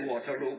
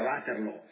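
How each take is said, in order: First: The name is said with an English pronunciation. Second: The name is said with a Flemish pronunciation. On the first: "pronunciandolo sbagliato all'inglese" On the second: "io lo pronuncio così, che più o meno è la pronuncia fiamminga"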